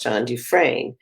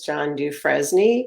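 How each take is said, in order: First: The surname is not read as it is spelled. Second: The surname is read as it is spelled. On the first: The speaker calls it right. "his name is pronounced John Dufresne" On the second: The speaker calls it wrong. "because that's how it's spelled"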